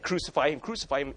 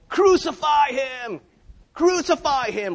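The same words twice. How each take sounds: First: It is said calmly, at normal volume. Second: It is shouted loudly, at full volume.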